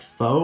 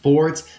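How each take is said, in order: First: The final T sound is left silent. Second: The final T sound is pronounced. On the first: The speaker calls it right. "The T is silent, so it's more like faux" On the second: The speaker calls it wrong. "I do believe it's not actually pronounced Fort"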